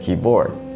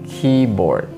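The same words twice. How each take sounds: First: The stress is on the second syllable. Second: The stress is on the first syllable. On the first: The speaker calls it wrong. "we don't say keyboard" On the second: The speaker calls it right. "In most compound nouns, the word stress is on the first noun"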